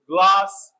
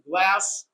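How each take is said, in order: First: It is said with a British accent. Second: It is said with an American accent.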